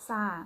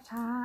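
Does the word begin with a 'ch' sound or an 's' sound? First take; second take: s; ch. First: The word begins with an 's' sound. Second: The word begins with a 'ch' sound. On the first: "ภาษาอีสานน่ะ" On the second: "ภาษาไทยกลาง"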